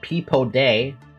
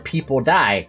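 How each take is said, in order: First: The last syllable sounds like 'day'. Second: The last syllable sounds like 'die'. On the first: "there was day" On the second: "People Die is ridiculous"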